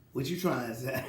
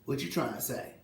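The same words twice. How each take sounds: First: Chuckling through the question; laughing. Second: Said in the usual way. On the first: Real, not acted. Mocks Isaiah's stolen medals story, laughing. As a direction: laugh while asking it back.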